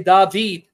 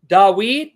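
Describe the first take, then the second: First: The middle consonant is a v sound. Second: The middle consonant is a w sound. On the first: This is how modern Hebrew pronounces it. The speaker calls it wrong. "Modern Hebrew, ... they'll say David" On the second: This is the older pronunciation, not the modern Hebrew one. The speaker calls it right. "instead of saying"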